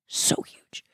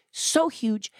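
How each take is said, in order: First: Breathy whispered awe. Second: Said in the usual way. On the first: Shown as a demonstration. To the listener, a hushed whisper of wonder. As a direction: whisper it like a secret. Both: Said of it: "whispered then repeated".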